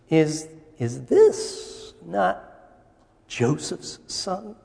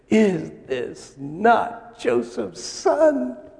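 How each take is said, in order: First: It is said hesitantly, in a doubtful tone. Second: It is said in a proud, warm tone.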